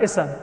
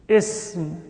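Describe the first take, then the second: First: A short vowel separates the s and m. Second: The s runs straight into the m. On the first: The speaker calls it wrong. "Not ism" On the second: The speaker calls it right. "The seen has a sukoon"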